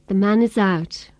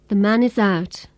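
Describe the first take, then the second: The two takes are said the same way.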